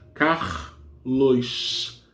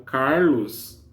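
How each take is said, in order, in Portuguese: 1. O s final soa como 'sh'. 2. O s final é um s simples. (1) "Aqui no Rio de Janeiro nós pronunciamos Carlos, né? É o R e o S. Desculpa, o X" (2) "Em alguns lugares não, é o Carlos"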